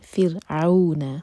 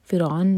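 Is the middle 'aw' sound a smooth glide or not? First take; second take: smooth glide; not smooth. First: The middle 'aw' is a smooth soft glide. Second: The middle 'aw' is not a smooth soft glide. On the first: The speaker calls it right. "عو مدلین" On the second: The speaker calls it wrong. "فرعون نہیں"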